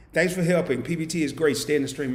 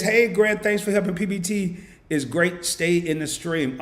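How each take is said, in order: First: Said in the usual way. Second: Excited read-out. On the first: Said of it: "repeats the message in his own voice". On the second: Real, not acted. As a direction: read it out with a big boost. Reading a chat message excitedly.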